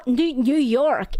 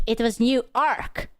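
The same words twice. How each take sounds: First: "New York" said with a clear "York"; "New York", the city, not "New Ark". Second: "New Ark" split into "new" and a stressed "ark"; "New Ark" with a punched "ark". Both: Shown as a demonstration.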